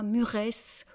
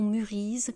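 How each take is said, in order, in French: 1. Le mot finit par un son -esse ajouté. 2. Le mot finit par un son -ise ajouté. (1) "on ne dit pas muresse" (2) "ou murise"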